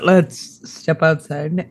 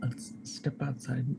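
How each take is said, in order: First: Said in the usual way. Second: Very soft, slow whisper; barely audible, secretive aside to companions. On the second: Acted. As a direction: drop right down to a hush. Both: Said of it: "I'm gonna whisper to them".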